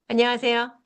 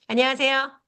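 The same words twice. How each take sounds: No difference in how they are said.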